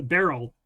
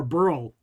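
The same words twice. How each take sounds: First: "Beryl" with an open "eh", BEH-rul; Beryl pronunciation. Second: "Burl" with an "ur" vowel, like curl; Burl pronunciation. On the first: Recalling the hurricane's disputed name, "Beryl" said BEH-rul. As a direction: say "Beryl" in two syllables, rhyming with feral. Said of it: "everybody was pronouncing it one way". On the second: Giving the other version of the hurricane's name, "Burl" like curl. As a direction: say "Burl" as one run-together syllable. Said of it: "pronouncing it one way over the other". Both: Shown as a demonstration.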